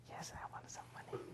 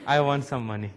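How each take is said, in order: First: Whispered, voiceless. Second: Said in the usual way. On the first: Retold or imitated. Grandson confiding to grandfather, whispered. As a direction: breathe it like a secret.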